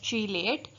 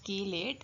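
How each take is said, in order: First: The word begins with a 'ch' sound. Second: The word begins with a 'k' sound. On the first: "sometime it is pronounced as चीलेट" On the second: "I will prefer to say chelate as we say chemistry"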